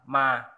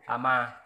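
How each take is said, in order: First: The word is said without its opening a. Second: The word is said with its opening a.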